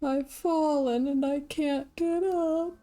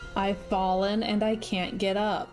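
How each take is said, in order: First: It is said in a creepy ghost voice. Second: It is said in a normal voice.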